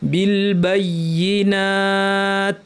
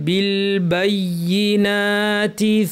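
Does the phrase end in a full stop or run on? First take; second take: full stop; runs on. First: The phrase stops, dropping the final vowel. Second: The phrase runs on into the next word. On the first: The reader pauses at this point. "এভাবে থামতে হবে" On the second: The reader continues without pausing. "মিলিয়ে পড়লে"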